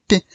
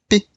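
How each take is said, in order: The two takes are said the same way.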